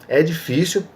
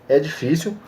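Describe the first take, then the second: Both takes have the same delivery.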